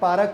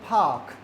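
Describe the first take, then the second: First: The word has a strong local Pakistani English accent. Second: The word has a polished native-like English accent. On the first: The speaker calls it wrong. "तो वो पिंग्लिश।" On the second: The speaker calls it right. "तो accent भी है, pronunciation भी है।"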